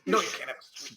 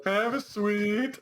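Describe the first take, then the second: First: Lightly acted parental refusal; parent refusing. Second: Higher, drawn-out mock kid question; child asking. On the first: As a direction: play a parent turning down a child. Replays parent refusing the child. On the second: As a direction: play a child begging slowly for candy. Replays child asking for sweets.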